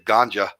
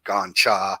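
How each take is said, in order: First: It is said the anglicized English way. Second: It is said the Thai way. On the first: This is a borrowed slang name. "we we bastard the name" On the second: This is the original local name. "the Thai pronunciation of gancha"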